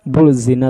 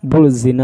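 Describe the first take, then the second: First: An L sound is heard before the Z. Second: An L sound is heard before the Z.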